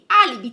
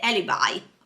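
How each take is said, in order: First: The word is pronounced the Italian way. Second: The word is pronounced the English way.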